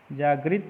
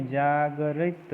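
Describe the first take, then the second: First: जागृत in two beats, "jaag-rit"; teacher voicing जागृत as quick jaag-rit; wrong form. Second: जागरित slowly as "jaa-ga-rit"; जागरित drawn out in three beats; correct form. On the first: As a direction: run g and r together in जागृत. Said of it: "नहीं". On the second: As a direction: open a vowel between g and r in जागरित. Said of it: "होता है". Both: Shown as a demonstration.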